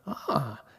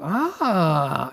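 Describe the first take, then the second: First: It sounds like mild understanding. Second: It sounds like a big realization.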